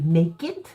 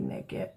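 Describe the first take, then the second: First: The word is said carefully with every sound clear. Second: The word is said quickly with the sounds slurred. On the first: The speaker calls it right. "it's supposed to be naked" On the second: The speaker calls it wrong. "if I'm just talking fast, I say naked"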